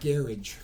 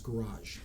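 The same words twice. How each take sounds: First: The word is said with a British pronunciation. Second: The word is said with an American pronunciation. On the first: The speaker calls it wrong. "not garage" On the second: The speaker calls it right. "in the U S it's garage"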